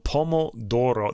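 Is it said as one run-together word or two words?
two words. It is said slowly as two separate words. It means golden apple.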